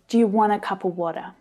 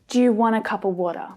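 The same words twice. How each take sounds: First: Many vowels are reduced to a schwa sound. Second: Many vowels are reduced to a schwa sound.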